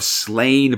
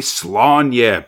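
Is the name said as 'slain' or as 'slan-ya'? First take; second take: slain; slan-ya. First: The name rhymes with 'slain', one syllable. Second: The name ends with a 'nya' syllable. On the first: "They rhyme it with slain a fair amount" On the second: "or should I say slanya pronunciations?"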